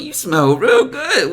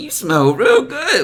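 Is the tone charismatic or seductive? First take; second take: charismatic; charismatic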